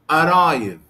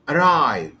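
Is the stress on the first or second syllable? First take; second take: first; second. First: The stress is on the first syllable. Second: The stress is on the second syllable. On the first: The speaker calls it wrong. "I cannot say like this" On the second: The speaker calls it right. "The stress here is on the second syllable"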